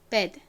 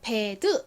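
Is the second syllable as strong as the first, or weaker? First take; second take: Weaker; As strong. First: The second syllable is weaker than the first. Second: Both syllables are said with equal force. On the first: The speaker calls it right. "앞 글자에 비해서 뒷 글자가 힘이 좀 빠지는 소리가 납니다" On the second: The speaker calls it wrong. "똑같은 세기로 bed 이렇게 발음하는 것이 아니라"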